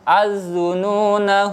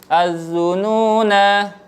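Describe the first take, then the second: First: The final vowel is short, joined to the next word. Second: The final vowel is held long at a stop. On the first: "jika dibaca wasol, nanya dibaca pendek" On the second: "jika dibaca waqaf, nanya tetap dibaca panjang"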